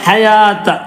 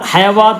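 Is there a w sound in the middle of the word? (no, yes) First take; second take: no; yes. First: No w sound is pronounced in the middle. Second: A w sound is pronounced in the middle. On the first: The speaker calls it right. "അലിഫിന്റെ പോലെ ഉച്ചരിക്കണം" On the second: The speaker calls it wrong. "ഹയവാത്ത എന്നല്ല"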